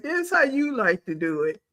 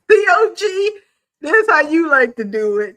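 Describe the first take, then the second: First: Said in the usual way. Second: Loud, high mock wail; hammed-up crying.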